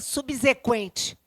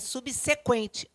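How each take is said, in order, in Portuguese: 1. O segundo s tem som sonoro, como z. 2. O segundo s tem som surdo, como s. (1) "Nem subsequente" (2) "É subsequente"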